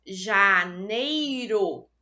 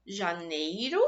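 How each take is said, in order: First: "Janeiro" said very slowly and louder as ja-nei-ro; split into syllables. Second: Said in the usual way. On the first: Shown as a demonstration. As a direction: sound out "Janeiro" in three clear beats. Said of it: "observem que eu fiz a pronúncia de três sílabas". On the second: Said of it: "Eu fiz a minha separação silábica".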